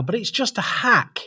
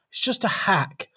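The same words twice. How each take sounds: First: Said in the usual way. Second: Whispered aside. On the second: Shown as a demonstration. Host confides his point to viewers, whispered. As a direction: whisper it like a secret.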